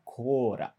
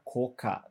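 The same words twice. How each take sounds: First: "cora" with a tapped r in place of the second k; Japanese pronunciation. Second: Said in the usual way. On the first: Shown as a demonstration. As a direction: say "cora" as Japanese speakers say cola. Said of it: "Eles vão falar cora". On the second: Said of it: "eles não vão falar coca".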